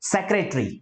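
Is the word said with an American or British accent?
British. One syllable is dropped, British style. "British speaker है ये वो सिलेबल को इग्नोर करेंगे"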